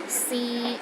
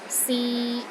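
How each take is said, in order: First: The pitch stays level in the middle. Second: The same.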